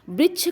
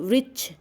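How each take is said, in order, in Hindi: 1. यह शब्द b ध्वनि से शुरू होता है। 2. यह शब्द v ध्वनि से शुरू होता है। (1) "यहाँ बा का उच्चारण" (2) "इसमें वा का उच्चारण"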